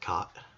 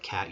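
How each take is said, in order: First: It has an Irish broad ah vowel. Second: It has a general flat A vowel.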